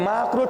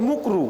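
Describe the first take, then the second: First: The first vowel is an open 'a' sound. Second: The first vowel is a rounded 'u' sound. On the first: The speaker calls it right. "মানে মাকরু" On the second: The speaker calls it wrong. "ঠিক করে বলে না"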